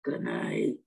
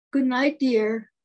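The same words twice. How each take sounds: First: Very low sleepy-husband goodnight; low-pitched reply from the husband; husband's voice. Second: Louder, drawn-out goodnight; lightly voiced wife, slow and emphatic; wife's bedtime goodnight. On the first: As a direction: drop way down for the husband. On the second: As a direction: call goodnight to a husband, slowly. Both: A narrator's reading. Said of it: "says her husband".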